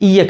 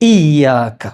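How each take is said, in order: First: The vowel after the 'y' sound is short. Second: The vowel after the 'y' sound is long. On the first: The speaker calls it wrong. "യാ ഇനെ നീട്ടാതെ ... അതും തെറ്റാണ്" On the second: The speaker calls it right. "നീട്ടണം ഒരലിഫ്"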